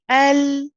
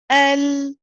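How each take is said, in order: No difference in how they are said.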